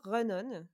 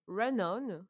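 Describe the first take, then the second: First: Said in the usual way. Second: English accent. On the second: Shown as a demonstration. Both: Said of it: "avec mon accent anglais".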